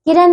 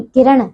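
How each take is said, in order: First: किरण ending in dental n: kiran; mispronunciation. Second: किरण ending in retroflex ण; correct pronunciation. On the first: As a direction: use a plain न at the end of किरण. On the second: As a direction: curl the final n of किरण. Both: Shown as a demonstration. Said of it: "किरण नहीं".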